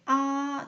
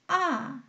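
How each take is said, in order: First: The pitch stays high and level. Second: The pitch drops sharply from high to low. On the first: "오에서 오 평평하게" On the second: "위에서 내리 꽂듯이"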